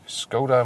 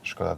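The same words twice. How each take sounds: First: The name is said with an English pronunciation. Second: The name is said with a Czech pronunciation.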